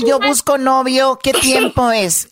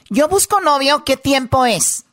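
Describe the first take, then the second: First: Slow, word by word; slow dictation. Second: Said in the usual way. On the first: Shown as a demonstration. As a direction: dictate it slowly for the class. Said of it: "dime la frase". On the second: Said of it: "dime en la frase".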